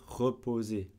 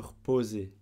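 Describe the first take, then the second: First: The vowel after the first r is pronounced. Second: The vowel after the first r is dropped. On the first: "on peut très bien dire reposer" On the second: "je ne dis pas le E"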